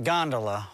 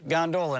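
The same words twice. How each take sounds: First: Gondola is said the Venice-boat way. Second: Gondola is said the railroad-car way. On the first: It names the boats of Venice. The speaker calls it wrong. "not gondola. All those are in Venice" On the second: It names the open-topped railroad freight car. The speaker calls it right. "it's gondola"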